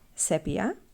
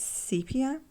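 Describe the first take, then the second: First: The word is pronounced the Greek way. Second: The word is pronounced the English way. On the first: "in Greek, it is called sepia" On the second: "in English it's sepia"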